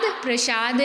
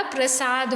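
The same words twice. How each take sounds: First: प्रसाद said as "pra-shaad". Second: प्रसाद said as "pra-saad"; स sound. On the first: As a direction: put a "sh" in प्रसाद. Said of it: "प्रसाद नहीं होता". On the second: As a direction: use a plain s in प्रसाद. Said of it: "शक्कर का नहीं आएगा". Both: Shown as a demonstration.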